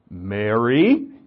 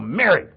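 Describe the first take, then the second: First: The name is said softly and gently. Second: The name is said sharply and firmly. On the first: He calls her tenderly. "Did he have an inflection in his voice?" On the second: He jolts her out of her grief. "And snap her out of it"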